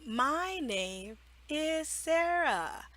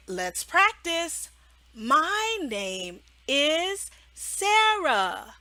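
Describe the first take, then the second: First: A hint of a child repeating, slow and soft; student repeating. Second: "My name is Sarah" stretched very slowly; slow modeling. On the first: Child repeating after the teacher, slow. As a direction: repeat it carefully like a learner. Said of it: "they will repeat". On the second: Shown as a demonstration. Teacher modeling a sentence for the child, very slow. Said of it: "And you can say".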